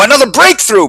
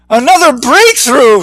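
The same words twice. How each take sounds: First: High, scornful boom; mocking roar. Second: High, dazed triumphant call; groggy yell. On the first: Bixby mocks Eugene with a high mocking roar. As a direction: roar it to mock the idea. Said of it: "Bixby roared". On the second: Skip cheers after hitting the glass, high and dazed. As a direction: cheer it though your head is spinning. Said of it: "Skip yelled, still groggy". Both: A narrator's reading.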